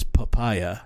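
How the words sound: The word is said with an English pronunciation. "we would say it as papaya"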